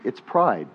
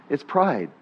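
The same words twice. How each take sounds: The two takes are said the same way.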